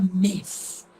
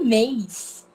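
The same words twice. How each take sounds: First: The vowel is plain with no i glide. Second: The vowel ends in an i glide. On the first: This is how it is written, not how people say it. "Ninguém fala mês" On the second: This is how people actually say it. "A gente fala mês. ... eu escuto o som do i"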